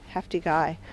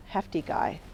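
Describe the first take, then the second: No difference in how they are said.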